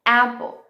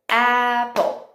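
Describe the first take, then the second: First: Said in the usual way. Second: APPLE stretched into two beats, "a" and "pple"; split into beats. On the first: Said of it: "Quantos beats tem dentro da palavra". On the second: Shown as a demonstration. Teacher counting beats for children, syllable by syllable. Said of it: "Que também são chamados de beats".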